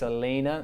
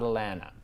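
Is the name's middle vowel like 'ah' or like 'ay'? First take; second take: ay; ah. First: The middle vowel sounds like 'ay'. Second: The middle vowel sounds like 'ah'. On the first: The speaker calls it right. "It's Elena" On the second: The speaker calls it wrong. "not Alana"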